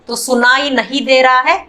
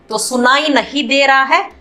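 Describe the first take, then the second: Both takes have the same delivery.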